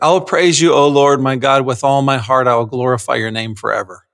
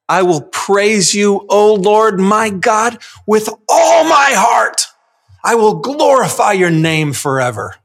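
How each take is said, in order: First: It is read flatly, without feeling. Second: It is read with zeal and passion.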